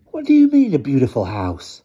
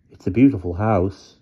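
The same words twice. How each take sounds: First: Sneering question that leaps higher on the opening; scornful. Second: Said in the usual way. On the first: Acted. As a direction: scoff at the word beautiful as if it were absurd. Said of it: "Blackie asked with scorn". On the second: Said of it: "T said".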